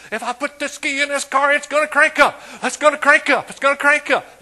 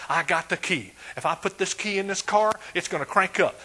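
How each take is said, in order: First: High, loud, hammed-up boast; mock shouting. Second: Said in the usual way. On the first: Preacher mocks a car owner yelling from its roof. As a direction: yell it like he's showing off. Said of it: "Stand up on top of the car". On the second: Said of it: "walk around your car and say".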